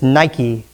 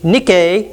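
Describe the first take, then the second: First: It is pronounced the English way. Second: It is pronounced the Greek way.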